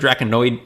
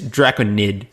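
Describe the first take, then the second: First: The word ends with an 'oid' sound. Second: The word ends with an 'id' sound. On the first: The speaker calls it wrong. "I think I pronounced it Draconoid" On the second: The speaker calls it right. "It's Draconid"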